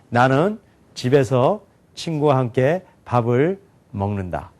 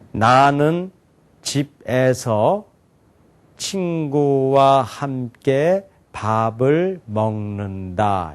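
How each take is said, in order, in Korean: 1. 단어마다 끊지 않고 빠르게 읽어요. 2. 단어 하나씩 천천히 읽어요. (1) "좀 빨리 읽었음에도 불구하고 더 이해가 잘 되죠" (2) "천천히 제가 또박또박 얘기했잖아요"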